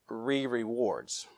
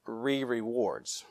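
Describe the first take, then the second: First: It is said as three syllables, re-re-wards. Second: The same.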